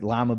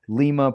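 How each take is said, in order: First: It is said the way the bean is. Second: It is said the way the Peruvian capital is. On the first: It names the bean. "like Lima bean" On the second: It names the capital of Peru. "Lima, Peru is not like Lima, like Lima bean"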